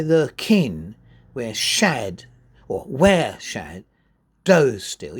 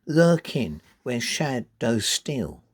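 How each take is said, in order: First: Slow and louder, stressing "where" instead of "Lurking"; wrong stress. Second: Slow, LURK and SHAD and STEAL marked; natural stress. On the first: Teacher showing the unnatural stress, slow and louder. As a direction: hammer "where" as if it mattered most. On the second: Teacher reading the line with its natural stress. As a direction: beat out "Lurking where shadows steal" slowly. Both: Shown as a demonstration. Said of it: "You wouldn't say".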